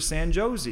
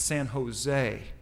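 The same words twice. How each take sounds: First: The J is said as an English J sound. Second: The J is said as an H sound. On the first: The speaker calls it wrong. "they don't pronounce the J's like that" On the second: The speaker calls it right. "It's a H sound"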